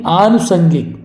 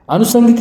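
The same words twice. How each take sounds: First: आनुसंगिक with long first aa; correct pronunciation. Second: अनुसंगिक with short first a, high; wrong pronunciation. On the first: Teacher correcting it, आनुसंगिक starting with long aa. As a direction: say आनुसंगिक as "aa-nusangik". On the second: Teacher rejecting the error, अनुसंगिक starting short. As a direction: say अनुसंगिक as "a-nusangik". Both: Shown as a demonstration. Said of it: "अनुसंगिक नहीं".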